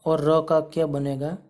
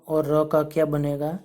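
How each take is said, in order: Both takes have the same delivery.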